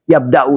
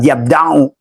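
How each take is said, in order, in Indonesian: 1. Konsonan tengahnya adalah hamzah. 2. Konsonan tengahnya adalah ain. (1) "Yabda'u itu menggunakan hamzah" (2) "bukan ain. Bukan yabda'u"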